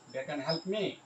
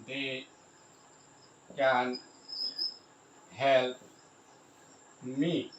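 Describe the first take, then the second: First: Said in the usual way. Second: Slow dictation, long gaps between words. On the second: Shown as a demonstration. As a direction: say each word on its own, then wait. Spelling out example while writing.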